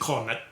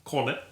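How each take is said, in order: First: It is said with a British pronunciation. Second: It is said with a British pronunciation.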